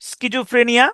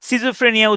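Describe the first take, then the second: First: The word begins with an sk sound. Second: The word begins with an s sound. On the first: "তো এটার ইয়াটা হচ্ছে স্কিজোফ্রেনিয়া" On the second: "বাংলাতে হলো সিজোফ্রেনিয়া উচ্চারণ করে"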